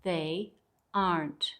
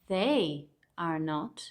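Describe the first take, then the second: First: The last two words are merged into one syllable. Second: Each word is said separately, in full.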